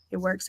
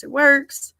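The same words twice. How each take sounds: First: Softer, lower, half to herself; quiet. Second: Higher and louder, decided; firm. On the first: Host deciding on the city photo to herself, quiet. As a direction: murmur it as a private thought. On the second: Host confirming the city photo to her viewers, firm and louder. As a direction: say it out, convinced. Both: Real, not acted.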